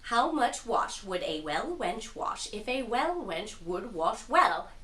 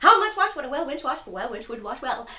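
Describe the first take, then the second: First: It is said slowly. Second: It is said fast.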